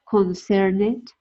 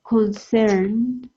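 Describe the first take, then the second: First: The -ed ending is said as an extra syllable. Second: The -ed ending adds no extra syllable. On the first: The speaker calls it wrong. "we don't say" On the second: The speaker calls it right. "we don't pronounce the E"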